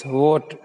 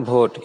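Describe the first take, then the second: First: "vote" begun with v, no b; correct v sound. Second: "vote" begun with Hindi bh; bha for v. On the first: Teacher giving the correction, v at the start of "vote". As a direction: start "vote" without closing the lips. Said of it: "it's vote". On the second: Teacher showing the mistake, bh at the start of "vote". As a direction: say "vote" as bhote, lips closed first. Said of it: "It's not vote". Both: Shown as a demonstration.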